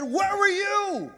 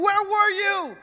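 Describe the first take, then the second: First: Slow, drawn-out, high mock-stern question; stern dad. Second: Put-on high, upset question from a frightened child; panicked son. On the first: The dad throwing the question back at his son, slow and pointed. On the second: A lost son asking his dad, high and upset. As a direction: demand it like a scared, relieved kid.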